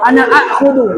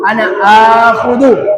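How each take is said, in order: First: The verb's first vowel is short. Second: The verb's first vowel is lengthened. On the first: "Harusnya kalau kita mau bilang saya mau ambil"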